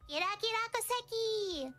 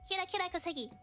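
First: High, sing-song imitation of a friend's intro; pitched way up, mimicking her greeting; Kira's intro voice. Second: Imitating Kira intro. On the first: Imitating her intro for the chat. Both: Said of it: "what's her intro?".

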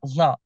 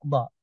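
First: ضاء with the ض released from the sides of the tongue; ضاء opening on a sideways-escaping ض sound; lateral Mehri Dad. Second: Said in the usual way. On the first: Shown as a demonstration. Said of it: "التي تنطق من جانبي اللسان". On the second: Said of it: "وليس ضاء".

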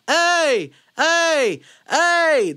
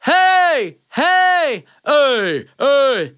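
First: High, loud "hey" on little air; yell without breath. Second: Powerful high yell on full lungs; full-breath yell. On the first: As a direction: try yelling with empty lungs. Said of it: "haven't taken a breath and you try to yell". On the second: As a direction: fill up and belt out "hey". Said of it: "if I take that breath and fill it up". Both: Shown as a demonstration.

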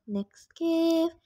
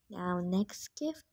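First: Higher, announcing again; perked-up higher announcement; brighter repeat. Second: Quiet and slowed down, a touch lower; hushed slow announcing; soft, drawn-out announcement. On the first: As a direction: lift it up like presenting the gift. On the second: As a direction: murmur it slowly to yourself first. Repeats the phrase, first softly. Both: Real, not acted.

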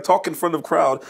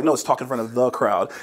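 First: Higher mock Russian accent; playful Russian-accented imitation; imitated Russian accent. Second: "the" picked out as a correction; "the" said as a full, emphatic word; stress on "the". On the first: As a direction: lightly imitate a Russian speaker dropping articles. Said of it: "taking notes in your accent". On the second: Retold or imitated. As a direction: lean on the word "the". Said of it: "I was like".

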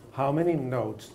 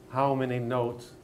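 No difference in how they are said.

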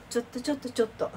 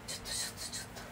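First: Said in the usual way. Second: Hushed whispered "ちょっと、ちょっと" with no voice. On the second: Real, not acted. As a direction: whisper ちょっと so as not to wake anyone. Quiet so papa isn't woken. (ささやき声の「ちょっと」)

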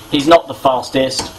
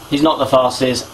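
Both takes have the same delivery.

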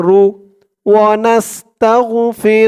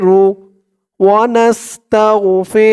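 No difference in how they are said.

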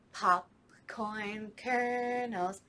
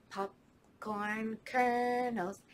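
No difference in how they are said.

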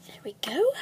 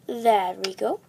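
First: There we go whispered; whispering. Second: Said in the usual way. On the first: Acted. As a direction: breathe There we go under breath. Whispered while mixing potion.

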